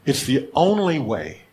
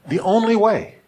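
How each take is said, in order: First: Slow, weighty stress on "only". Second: "only" punched much higher and louder; emphatic repeat. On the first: Preacher emphasizing to congregation, slow stress on "only". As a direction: lean slowly into the word "only". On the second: Preacher driving the point home to the congregation, high loud stress on "only". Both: Shown as a demonstration. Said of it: "put the official and only to emphasize it".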